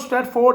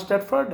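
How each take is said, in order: First: The last syllable is a full 'ford'. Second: The last syllable is reduced to 'fud'. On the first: The speaker calls it wrong. "लिखने में वो स्टेटफोर्ड है" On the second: The speaker calls it right. "पढ़ना स्टेटफर्ड है"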